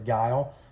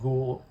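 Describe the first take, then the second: First: The vowel sounds like 'i' in mile. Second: The vowel sounds like 'oo' in cool. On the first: The speaker calls it right. "they pronounced it the Guile, which makes more sense" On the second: The speaker calls it wrong. "I think I pronounced it Ghoul"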